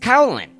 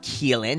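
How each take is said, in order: First: The name is sounded out letter by letter. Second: The name sounds like 'Keelan'. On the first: The name is read the way it is written. The speaker calls it right. "if you're spelling your name C-A-O-L-A-N, it's Caolan" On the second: The name is given its traditional pronunciation. The speaker calls it wrong. "It's not Caolan. If you want it to be Caolan, it's K-E-E-L-E-N"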